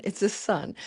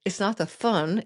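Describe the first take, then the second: First: "sun" with a clean, sharp s; crisp s. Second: "thun" with a lisped th in place of s; mock the lisp with "thun" for sun. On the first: Correcting the lisp for viewers, a crisp s in "sun". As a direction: say "sun" with a clear hissed s. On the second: Recalling her mic glitch to viewers, "thun" lisped with th. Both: Shown as a demonstration. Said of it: "It's not the thun".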